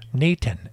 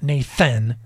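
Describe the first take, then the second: First: The middle consonant is a plain 't' sound. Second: The middle consonant is a 'th' sound. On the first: The speaker calls it right. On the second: The speaker calls it wrong. "not Nathan"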